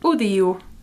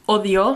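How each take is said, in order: First: The vowels are pronounced like a U. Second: The vowels are pronounced as a clear O. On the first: "the O's sound like U's here" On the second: "similar to Spanish"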